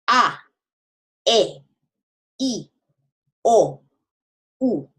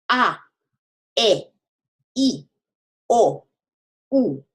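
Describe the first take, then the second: The two takes are said the same way.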